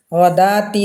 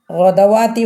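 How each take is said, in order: First: ഗദാത്തി with no വ, the ദാ drawn long; correct reading. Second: ഗദവാത്തി said with the വ sounded, slowly; wrong reading. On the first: Teacher gives students the right ഗദാത്തി, വ left silent. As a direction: skip the വ and stretch ദാ in ഗദാത്തി. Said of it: "അപ്പോൾ നമ്മൾ ഗദാത്തി എന്നേ പറയാം". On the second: Teacher shows students the wrong ഗദവാത്തി with the വ voiced. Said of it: "പറയാൻ പാടില്ല, ഓതാൻ പാടില്ല". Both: Shown as a demonstration.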